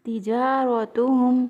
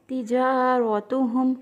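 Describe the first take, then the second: No difference in how they are said.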